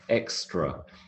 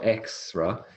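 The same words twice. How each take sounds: First: The T sound is pronounced in the word. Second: The T sound is dropped from the word. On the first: The speaker calls it right. "So there is a T" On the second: The speaker calls it wrong. "It's not extra"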